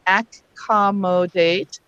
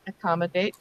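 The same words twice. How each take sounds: First: ACCOMMODATE with each syllable fully sounded, ac-com-mo-date; "accommodate" spelled out by ear, first vowel unreduced; syllable-by-syllable pronunciation. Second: "accommodate" run together softly, first A as uh; everyday reduced pronunciation. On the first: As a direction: sound out "accommodate" with a clear AC and full MO. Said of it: "We could start off by saying". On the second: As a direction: say "accommodate" quietly with schwas, uh-COM-uh-date. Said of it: "as we say it quickly". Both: Shown as a demonstration.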